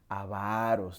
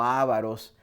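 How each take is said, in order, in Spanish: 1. El acento está en la segunda sílaba. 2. El acento está en la primera sílaba. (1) "la palabra es llana" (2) "no ávaros"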